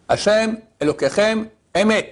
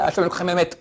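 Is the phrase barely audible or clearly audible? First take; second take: clearly audible; barely audible. First: The phrase is said clearly and loud enough to hear. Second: The phrase is mumbled so quietly it is barely heard. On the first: The speaker calls it right. "il doit prononcer bien" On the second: The speaker calls it wrong. "pas ... qu'on n'entend rien du tout"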